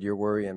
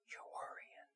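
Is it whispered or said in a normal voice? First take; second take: normal; whispered. First: It is said in a normal voice. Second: It is whispered close to the ear.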